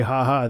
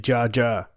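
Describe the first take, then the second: First: "ha ha" with a breathy h, as in English; English laugh "ha ha". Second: "ja ja" said as written, with a hard j sound; Spanish laugh "ja ja". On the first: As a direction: friend explaining Spanish laughter, saying "ha ha" the English way. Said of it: "they don't say". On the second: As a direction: friend explaining Spanish laughter, saying "ja ja" with a hard j. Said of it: "they say". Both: Shown as a demonstration.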